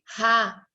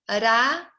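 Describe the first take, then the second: First: The R is a strong throaty sound. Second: The R is a light tongue tap. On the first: "ia ficar com som forte" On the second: "é o R que tem a pronúncia da arara"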